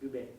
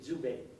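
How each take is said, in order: First: The first sound is a plain d. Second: The first sound is a dz sound. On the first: This is how it is said in France. "the French people would just pronounce that Dubé" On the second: This is how it is said in Canada. "In Canada, they say Dubé. They put that Z yeah. along with the D"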